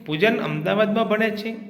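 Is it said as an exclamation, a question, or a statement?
question. It is said with a questioning tune. The speaker is asking whether this is true. "પ્રશ્નાર્થ વાક્ય"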